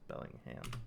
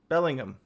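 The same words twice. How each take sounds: First: The last syllable is a full, clear 'ham'. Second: The last syllable is reduced to a short 'hum'. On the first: The speaker calls it wrong. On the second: The speaker calls it right. "The Brits like to to not say ham. It's hum"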